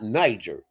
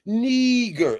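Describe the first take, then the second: First: "Niger" said NY-jer; rejected pronunciation. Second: "Niger" as a slow, high NEE-ger; corrected pronunciation. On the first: Host rules out a reading, "Niger" as NY-jer. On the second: Host gives the right name, "Niger" stretched as NEE-ger. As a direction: draw out the ee, hard g in "Niger". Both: Shown as a demonstration. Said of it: "That's not Niger".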